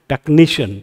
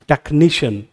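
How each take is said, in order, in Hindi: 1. ज़ोर दूसरे शब्दांश पर है। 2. ज़ोर दूसरे शब्दांश पर है।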